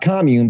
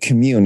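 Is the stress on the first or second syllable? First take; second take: first; second. First: The stress is on the first syllable. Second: The stress is on the second syllable. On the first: It is the noun, a community. "not commune" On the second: It is the verb, to feel close connection. "but commune as a verb"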